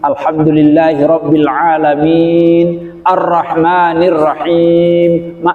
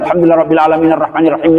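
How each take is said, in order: First: There is a pause after alamin. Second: There is no pause after alamin. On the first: The speaker calls it right. "Jadi setiap akhir ayat berhenti" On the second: The speaker calls it wrong. "kenapa salah?"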